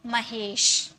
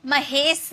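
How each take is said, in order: First: महेश said as "mahesh", ending in a clear sh; correct SH sound. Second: महेश said as "mahes", ending in a plain s; wrong S sound. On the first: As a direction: end महेश on sh, as in "ship". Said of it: "स नहीं है, श है". (महेश के अंत में साफ़ श) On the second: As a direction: end महेश on a hissless-of-sh, plain dental s. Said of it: "महेश नहीं, स नहीं है, श है". (महेश के अंत में श की जगह स) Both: Shown as a demonstration.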